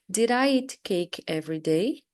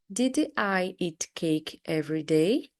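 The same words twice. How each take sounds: First: The sentence is said at a faster pace. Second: The sentence is said at a slower pace.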